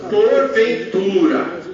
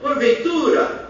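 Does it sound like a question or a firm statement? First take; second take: statement; question. First: It is said firmly as a statement. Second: It rises like a question.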